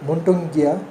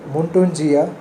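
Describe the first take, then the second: First: The middle consonant is a hard g sound. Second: The middle consonant is a j sound.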